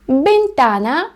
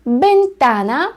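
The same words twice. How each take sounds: First: Бентана slow, each syllable clear; вимова бентана; teacher's model word. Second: Бентана slow, stressed та, rising end; повторення бентана; teacher's model word. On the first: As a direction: model Бентана slowly for pupils. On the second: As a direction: repeat бентана slowly. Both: Shown as a demonstration. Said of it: "це вікно".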